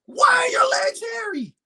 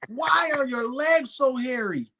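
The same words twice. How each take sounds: First: Mock outraged shout. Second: Said in the usual way. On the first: Retelling the hairy legs at the rink, a hammed-up high outraged cry. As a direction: wail it like the sight is unbearable.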